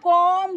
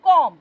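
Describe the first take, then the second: First: The final b is pronounced after the m. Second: The word ends on the m, b silent. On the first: The speaker calls it wrong. "আমরা কম বলি না" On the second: The speaker calls it right. "আমরা বলি কম"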